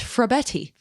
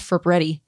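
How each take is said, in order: First: The R sound comes after the F. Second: The R sound comes after the B. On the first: The speaker calls it right. "It's Frabetti" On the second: The speaker calls it wrong. "Don't add another R. It's not Fabretti"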